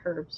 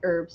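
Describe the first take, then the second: First: The word starts with an H sound. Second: The word starts without an H sound.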